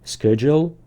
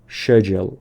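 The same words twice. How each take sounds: First: It is said in an American accent. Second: It is said in a British accent. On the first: "تلفظ امریکن" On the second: "تلفظ بریتیش"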